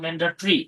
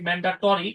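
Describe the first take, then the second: First: The vowel before 'ri' is dropped, giving 'tri'. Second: It is said as spelled, with a vowel before 'ri'. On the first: "কিন্তু উচ্চারণ ম্যান্ডাট্রি" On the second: "আমরা লেখার সময় লিখি ম্যান্ডাটরি"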